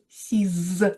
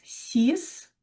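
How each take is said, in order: First: The word ends with a z sound. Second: The word ends with an s sound. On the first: A noun starting with a vowel follows. "vous devriez prononcer Z, faire la liaison" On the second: The number stands alone. "vous prononcez avec S à la fin"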